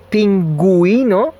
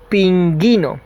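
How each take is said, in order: First: The u after g is pronounced, giving gwi. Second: The u after g is silent, giving gi. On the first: "if I want to say pinguino, like penguin" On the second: "actually we would read it like pingui, pinguino"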